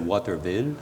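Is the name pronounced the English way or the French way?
English. The name is pronounced the English way. This is how English speakers said it. "les anglophones disaient Waterville"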